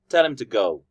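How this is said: Tell and go are stressed; him, to weak. "when I'm saying the weak form, I'm not emphasizing him and I'm not emphasizing to. I'm emphasizing tell, go"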